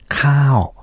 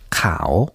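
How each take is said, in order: First: The word is said with a falling tone. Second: The word is said with a rising tone. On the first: It means cooked rice. "下がる成長で今私が言いましたようにカオ" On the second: "上がる声調でカオというふうに言うと"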